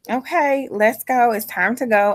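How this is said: It is said in a calm, even tone.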